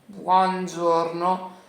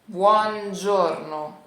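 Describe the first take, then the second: Both takes have the same delivery.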